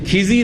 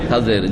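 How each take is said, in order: First: The name's first vowel is an 'i' sound. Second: The name's first vowel is an 'a' sound. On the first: The speaker calls it wrong. "আমাদের দেশের লোকেরা কি বলে? ... নামকে এমন ভাবে বিকৃত করে" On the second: The speaker calls it right. "খাজের কি বলবেন?"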